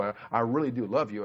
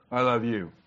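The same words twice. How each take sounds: First: "I, I really do love you" said sincerely, leaning on "love"; mean every word of "I really do love you"; a heartfelt "I really do love you" to his wife; right tone. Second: "I love you" said offhand with no feeling; a flat careless "I love you" to his wife; wrong tone. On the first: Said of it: "put the tone with it". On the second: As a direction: toss off "I love you" like it means nothing. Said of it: "is not the right tone of voice". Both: Shown as a demonstration.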